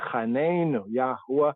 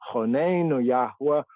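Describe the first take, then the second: First: The first vowel sounds like 'a'. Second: The first vowel sounds like 'o'. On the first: This is how the speaker's own group says it. "We say Chanenu Yahuwah" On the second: This is how some other Hebrew speakers say it. "some Hebrew speakers as Chonenu"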